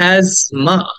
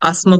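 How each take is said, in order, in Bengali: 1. মাঝের ব্যঞ্জনটি z ধ্বনি। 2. মাঝের ব্যঞ্জনটি z ধ্বনি নয়। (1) "এটা হচ্ছে asthma" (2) "asthma বলা যাবে না"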